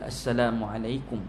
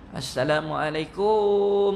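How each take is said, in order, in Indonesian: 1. Suku kata terakhir dibaca pendek. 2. Suku kata terakhir dipanjangkan. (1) "dengan lafaz yang betul" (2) "Panjang kum itu"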